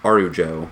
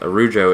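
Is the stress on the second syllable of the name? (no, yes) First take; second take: no; yes. First: The stress falls on a different syllable. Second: The stress falls on the second syllable. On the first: The speaker calls it wrong. "and he says Arujo" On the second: The speaker calls it right. "It's Arujo. Yes"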